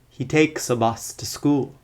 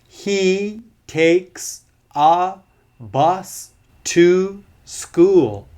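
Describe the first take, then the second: First: 'A' and 'to' are reduced to schwa. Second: 'A' and 'to' have full, unreduced vowels. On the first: The speaker calls it right. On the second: The speaker calls it wrong. "with all strong forms, ... that's not so natural"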